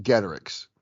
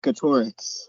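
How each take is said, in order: First: Getorix as GET-er-ix; first-syllable stress. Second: Getorix as guh-TOR-ix; middle-syllable stress. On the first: Shown as a demonstration. Host giving the pronunciation he always heard, first-syllable stress. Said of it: "I've always heard it pronounced". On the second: Retold or imitated. Co-host demonstrating Dustin's way of saying the name, middle-syllable stress. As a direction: lean on the OR in Getorix. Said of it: "the way Dustin says it is".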